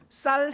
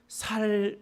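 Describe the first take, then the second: First: The initial s sound is tense. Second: The initial s sound is plain. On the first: "쌀 해봐 했는데" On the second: "살 그래요. 그러면 아 얘는 경상도 사람이다"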